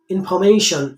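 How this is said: It is said in a common Indian way. The speaker calls it wrong. "Or we can say information in India"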